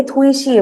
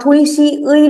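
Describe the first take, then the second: First: थुई शी ए with the particle said as a short "e"; correct pronunciation. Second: थुई शी उई with the last part said as a full "u-ee"; the teacher shows the mistake, saying थुई शी उई with उई as "u-ee"; wrong pronunciation. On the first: Korean teacher gives the correct reading, the particle said as "e". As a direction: say थुई शी ए, ending on a clean "e" sound. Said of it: "इसकी pronunciation हो जाती है ए". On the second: Korean teacher demonstrates wrong reading, उई said as "u-ee". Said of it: "उई जो होता है वो रॉन्ग प्रोनाउंसिएशन है". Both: Shown as a demonstration.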